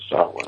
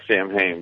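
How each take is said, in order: First: It is pronounced with the Celtic pronunciation. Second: It is pronounced the way English spelling suggests. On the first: The speaker calls it right. "the Celtic pronunciation is Samhain" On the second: The speaker calls it wrong. "It looks like Samhain"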